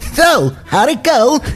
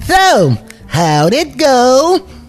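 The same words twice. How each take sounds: First: The word go is short. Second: The word go is drawn out long.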